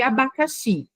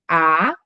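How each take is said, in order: First: Said in the usual way. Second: A-ba-ca-xi, each syllable said apart and low; split into syllables. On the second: Shown as a demonstration. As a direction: dictate "A-ba-ca-xi" to a child, one syllable at a time. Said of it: "vai escrever abacaxi".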